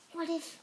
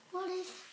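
Both takes have the same delivery.

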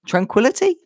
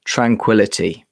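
First: Tranquility? asked with a rising tune, a bit higher; unsure read, lifting at the end; Tranquility? as a puzzled question; questioning try. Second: Tranquility. said low and calm with a falling tune; Tranquility. in a lower, settled voice; tranquil read. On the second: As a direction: say it like the name of a soothing tea. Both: Shown as a demonstration.

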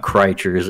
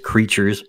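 First: Creatures mispronounced as CRY-chers; mistaken pronunciation. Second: Creatures said just like the English word; plain pronunciation. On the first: Game designer showing host the common mistake, Creatures mispronounced CRY-chers. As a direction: say Creatures with a cry sound up front. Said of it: "not crea-, not Creatures". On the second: Game designer correcting host on the name, plain pronunciation of Creatures. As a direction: say Creatures as the everyday word, CREE-chers. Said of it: "is pronounced just Creatures". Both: Shown as a demonstration.

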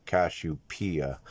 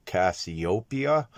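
First: Cassiopeia said as "kash-oo-PEE-uh"; alternative pronunciation. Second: Said in the usual way. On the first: Shown as a demonstration. Showing listeners how some pronounce the constellation, Cassiopeia as "kash-oo-PEE-uh". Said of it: "some pronounce it". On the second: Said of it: "I call it Cassiopeia".

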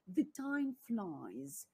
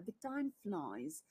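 First: "The time flies" said very slowly, word by word; slow model phrase. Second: Said in the usual way. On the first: Shown as a demonstration. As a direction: stretch out "The time flies" for learners to copy. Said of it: "вони кажуть". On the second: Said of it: "Англійською мовою час минає".

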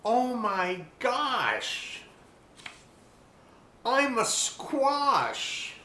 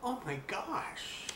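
First: High, very slow amazed exclaim; astonished discovery. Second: Hushed, slow thinking aloud; inner thought. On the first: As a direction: stretch out the wonder. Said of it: "realization exclaimed". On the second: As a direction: breathe it to yourself in shock. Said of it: "then thought". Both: A narrator's reading.

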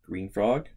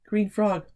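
First: Said in the usual way. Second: Higher, louder cheer; excited. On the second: Real, not acted. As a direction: burst out with the answer. Repeating the answer.

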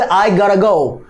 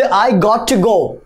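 First: "gotta" run together as "gara"; quick linked "I godda go"; American flap contraction. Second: "I got to go" with a separate "to"; careful, slow "got to" with clear T; full form. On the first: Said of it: "তাহলে কি হবে?". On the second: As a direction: say "got to" uncontracted. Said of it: "কিন্তু যদি বলি". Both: Shown as a demonstration.

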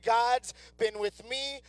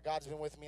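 First: Slow, earnest proclamation; emphatic declaration. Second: Low, soft, offhand quote; dismissive recital. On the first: Shown as a demonstration. Preacher urging congregation to take it to heart, slow and emphatic. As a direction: declare it slowly so it sinks in. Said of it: "get this in your spirit". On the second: Acted. Preacher imitating unimpressed listeners quoting the verse, low and dismissive. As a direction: toss it off like a trite slogan. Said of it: "it's a little Bible verse thing".

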